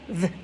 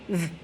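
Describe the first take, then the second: The two takes are said the same way.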